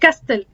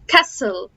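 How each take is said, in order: First: The t sound is pronounced in the middle. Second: The t sound is left out in the middle. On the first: The speaker calls it wrong. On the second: The speaker calls it right.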